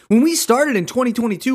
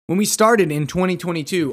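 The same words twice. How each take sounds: First: It is read with lively, exclamatory enthusiasm. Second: It is read in a flat, plain tone.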